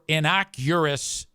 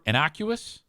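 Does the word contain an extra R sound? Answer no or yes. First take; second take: yes; no. First: The word is said with an extra R sound. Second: The word is said without an extra R sound. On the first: The speaker calls it wrong. "Extra R in there" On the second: The speaker calls it right. "I think he's looking for innocuous"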